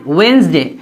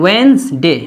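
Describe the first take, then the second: Both takes have the same delivery.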